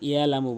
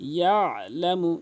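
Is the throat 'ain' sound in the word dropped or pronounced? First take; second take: dropped; pronounced. First: The throat 'ain' sound is left out. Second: The throat 'ain' sound is clearly pronounced. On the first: The speaker calls it wrong. "অধিকাংশ লোক ইয়ালামু বলে, আইনের উচ্চারণ করেই না।" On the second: The speaker calls it right. "আপনি আইনের উচ্চারণ অবশ্যই করবেন।"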